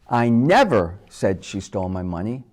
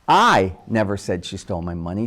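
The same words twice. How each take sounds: First: The stress is on the word never. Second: The stress is on the word I.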